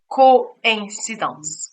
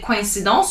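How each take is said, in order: First: The i sound is clearly emphasized. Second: The i sound is not emphasized. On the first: The speaker calls it right. "you say coincidence. So how do I know to emphasize the I?" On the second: The speaker calls it wrong. "You don't say coincidence"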